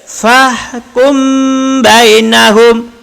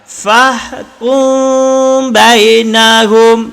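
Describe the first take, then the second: First: The m is said with fully closed lips. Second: The m is hidden in a two-beat nasal hum. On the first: The speaker calls it wrong. "Salah. Kenapa salah? Karena bibir rapat" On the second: The speaker calls it right. "Jadi bukan kum, bukan kum, tapi ku"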